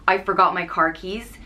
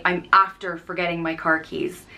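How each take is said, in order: First: Said in the usual way. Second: "I'm after forgetting my car keys" said plainly as the Irish form; Irish phrasing. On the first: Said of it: "instead of saying". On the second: Shown as a demonstration. Teacher showing the Irish way, plain relaxed delivery. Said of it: "you'd say".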